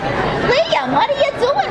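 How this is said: It is said in an exaggerated old New York accent. It is a joking rehearsal before filming. "in a silly accent. So she'll be sitting there like doing like a like an like an old New York woman"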